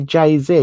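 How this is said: The letter Z is said the American way. "that's how the Americans would say it"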